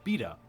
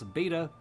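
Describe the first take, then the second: First: Said with a British pronunciation. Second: Said with an American pronunciation.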